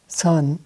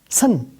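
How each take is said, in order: First: The syllable is said low and drawn out. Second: The syllable is said high and clipped short. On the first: It means rare. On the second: It means fresh or clear.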